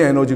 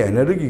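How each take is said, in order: First: It is said the English way, en-er-ji. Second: It is said the German way, e-ne-reu-gi. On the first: This is how it is said today. "지금 영어식으로 에너지 그러지만" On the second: This is how it was said in the past. "옛날에는 에네르기 에네르기 그랬습니다. 그게 이제 독일어 발음을 따와가지고"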